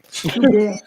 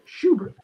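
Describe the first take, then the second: First: The name begins with a plain s sound. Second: The name begins with a sh sound. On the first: The name is treated as French. "She's French. It's Subert" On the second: The name is read the usual way. "You don't say Schubert, do you?"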